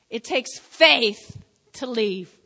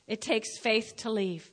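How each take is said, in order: First: "It takes faith to leave" slow, louder, weight on "faith"; slow emphatic. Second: Said in the usual way. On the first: Shown as a demonstration. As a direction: lean hard on "faith", drawn out. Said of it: "repeated emphatic line". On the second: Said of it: "repeated plain line".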